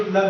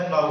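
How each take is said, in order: First: प्लग with short 'a' and hard 'g'; mispronounced plough. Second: प्लाऊ ending in an 'ow' sound, no 'g'; correct plough pronunciation. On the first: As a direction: say plough wrongly as प्लग, like 'plug'. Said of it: "इसको कुछ लोग प्लग भी पढ़ते हैं". (हल के अंग्रेज़ी शब्द का गलत उच्चारण 'प्लग') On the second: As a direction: say प्लाऊ to rhyme with 'cow'. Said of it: "लेकिन ये प्लग नहीं होता". (सही उच्चारण 'प्लाऊ', अंत में 'आऊ') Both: Shown as a demonstration.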